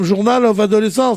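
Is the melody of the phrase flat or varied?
flat. It is said with a flat, even French melody. The speaker calls it wrong. "doivent pas être prononcés comme"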